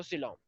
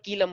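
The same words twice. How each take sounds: First: "सीलोम" with a soft s at the start; soft s and long o in "सीलोम"; correct pronunciation. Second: "कीलम" with a hard k at the start; hard k in place of s in "कीलम"; wrong pronunciation. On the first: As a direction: say "सीलोम" as see-LOHM. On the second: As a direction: say "कीलम" as KEE-lum. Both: Shown as a demonstration. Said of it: "कीलम मत बोलना बस".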